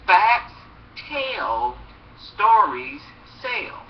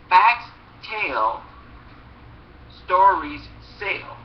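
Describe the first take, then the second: First: Facts and stories lifted, tell and sell dropped; rhythmic chant of the motto; punchy slogan. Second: Slow, weighty slogan, each word landed; slogan delivery. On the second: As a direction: deliver the motto like a chant. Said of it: "that's this old saying we used to say". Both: Shown as a demonstration.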